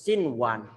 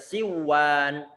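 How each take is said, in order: First: The n sound is pronounced clearly before w. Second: The n sound is merged away and not heard. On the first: The speaker calls it right. "tapi harus" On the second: The speaker calls it wrong. "nggak boleh dibaca"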